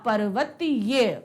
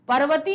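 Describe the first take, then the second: First: The word ends with an added 'ya' sound. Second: The word ends on a plain 'ee' vowel. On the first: The speaker calls it right. "क्या होगा? पर्वतीय" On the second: The speaker calls it wrong. "पर्वती नहीं होगा"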